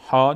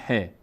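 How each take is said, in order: First: ها said "haa", with a long open a; Arabic letter name. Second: ه said "he", with an e vowel; Persian letter name. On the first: Teacher giving learners the Arabic name, ها as "haa". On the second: Teacher giving learners the Persian name, ه as "he". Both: Shown as a demonstration.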